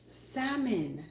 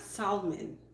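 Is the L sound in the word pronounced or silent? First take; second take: silent; pronounced. First: The L sound is left silent. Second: The L sound is clearly pronounced. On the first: The speaker calls it right. "Let's take away the L" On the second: The speaker calls it wrong. "Not salmon"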